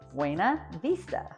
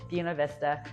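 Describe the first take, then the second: First: It is said with a Spanish pronunciation. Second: It starts like the first sound of beautiful. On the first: The speaker is not from the town. "in any Spanish-speaking country" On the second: The speaker is a local. "But here, oh no, it's"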